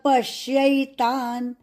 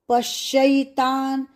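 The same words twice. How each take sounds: First: The syllable yai carries no extra stress. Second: The syllable yai carries extra heavy stress. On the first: The speaker calls it right. "ऐसा उच्चार सही है" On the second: The speaker calls it wrong. "पश्यै आधाश अधिक यै पश्यैतान् बोलना नहीं ... यह गलत उच्चार"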